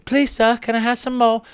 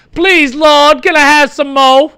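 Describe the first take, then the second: First: Put-on small, high, soft child's plea; begging orphan kid. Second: High, loud, hammed-up child's plea; begging orphan kid. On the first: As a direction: beg timidly in a put-on orphan voice. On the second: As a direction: plead like a hungry orphan in a play. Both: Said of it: "it's like a kid at a".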